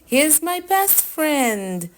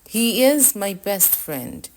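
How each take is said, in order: First: It is said in an excited, joyful tone. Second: It is said in a plain, calm tone.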